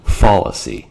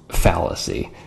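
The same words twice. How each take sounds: First: The first syllable sounds like the word 'fall'. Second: The first syllable does not sound like 'fall'. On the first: The speaker calls it wrong. "not fallacy. You're not falling down" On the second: The speaker calls it right. "the word is pronounced fallacy"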